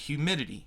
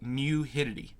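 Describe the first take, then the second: First: The word begins with an h sound. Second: The word begins with an m sound. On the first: The speaker calls it right. "he couldn't say the word humidity" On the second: The speaker calls it wrong. "he would call it mu-hidity, which is weird"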